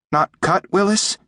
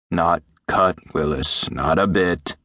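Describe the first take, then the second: First: High little creature seeking reassurance; high-pitched, timid question; anxious. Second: Lower, settling doctor's voice; calm, falling promise from an older man; reassuring. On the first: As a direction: ask worriedly in a tiny high voice, rising. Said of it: "he said anxiously in Jim's voice". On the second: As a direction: reassure a frightened pet, letting the pitch drop. Doctor reassures the anxious creature. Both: A narrator's reading.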